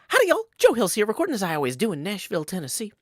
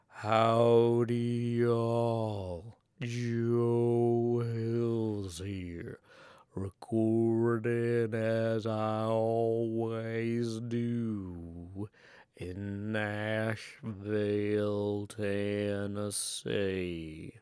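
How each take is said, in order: First: The line is delivered at a faster pace. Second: The line is delivered at a slower pace. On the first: "Maybe a little bit faster" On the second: "A little bit slower"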